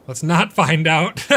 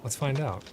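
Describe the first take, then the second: First: Much louder and higher, slowed, with NOT rising; panicked backtrack. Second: Said in the usual way. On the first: Real, not acted. Streamer regretting the gamble, panicked yelp. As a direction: yelp "Let's not find out" as the gear fails.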